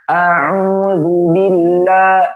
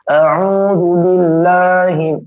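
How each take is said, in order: First: The first vowel is said with the mouth wide open. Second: The first vowel is said with a nearly closed mouth. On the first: The speaker calls it right. "harus dibuka" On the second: The speaker calls it wrong. "dia tutup mulutnya"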